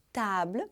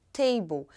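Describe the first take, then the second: First: Table com "a" bem aberto e final "blə"; French pronunciation. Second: Table à inglesa, "têibol"; English pronunciation. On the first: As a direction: table à francesa, "tablə". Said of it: "com som bem aberto de A". (pronúncia francesa de table) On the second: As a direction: table com "ei" e final "bol". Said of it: "o inglês pegou ... e ficou". (pronúncia inglesa de table) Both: Shown as a demonstration.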